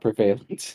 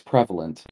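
First: The start sounds like the word 'prevail'. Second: The start does not sound like 'prevail'. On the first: The speaker calls it wrong. "There's no prevailing in this" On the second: The speaker calls it right. "it's prevalent, not prevalent"

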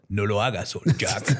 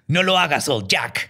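First: It is said in a deeper voice. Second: It is said in a higher voice.

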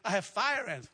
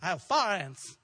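First: Fire has the full standard diphthong. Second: Fire is flattened to sound like far. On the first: Locals would not understand it. "if you go and say, I have fire ants. What?" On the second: This is how locals say it. "You have to say far"

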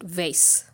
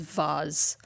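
First: The word rhymes with base. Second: The word does not rhyme with base. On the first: It is read as if it were an English word. The speaker calls it wrong. "like base" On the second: It keeps the original pronunciation. The speaker calls it right. "the correct pronunciation is vase"

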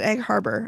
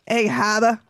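First: It is said in a standard, non-local accent. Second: It is said in a local New Jersey accent. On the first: The speaker calls it wrong. "I was very upset when he pronounced it Egg Harbor" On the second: The speaker calls it right. "You know how to say Egg Haba"

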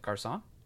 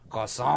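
First: The name is said with an American accent. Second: The name is said with an exaggerated French accent.

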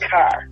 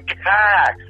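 First: It is a natural Boston accent. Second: It is an overdone Boston accent.

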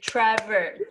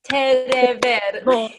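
First: The name is said with two syllables. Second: A vowel is added, giving three syllables. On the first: "his name is actually like Trevor, two syllables" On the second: "With the Persian accent"

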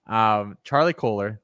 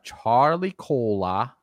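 First: The name is said in a plain accent. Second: The name is said in a Boston accent.

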